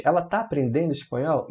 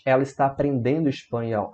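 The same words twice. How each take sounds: First: "Ela tá aprendendo espanhol" with a rising question ending; interrogative intonation. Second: Said in the usual way. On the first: Shown as a demonstration. Teacher showing the changed intonation, "Ela tá aprendendo espanhol" as a question. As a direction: lift "espanhol" as if asking. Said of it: "Veja como a entonação muda".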